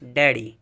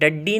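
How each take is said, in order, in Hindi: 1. बीच का d एक ही है और छोटा बोला जाता है। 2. बीच का d दोहरा है और लंबा खिंचता है। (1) "तलफ़ुज़ सिर्फ एक ही का हो रहा है" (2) "इसे डड्डी नहीं पढ़ेंगे"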